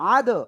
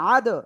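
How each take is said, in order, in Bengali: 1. শেষের দ জোরালো প্রতিধ্বনিত ঝাঁকুনি দিয়ে শেষ হয়। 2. শেষের দ জোরালো প্রতিধ্বনিত ঝাঁকুনি দিয়ে শেষ হয়।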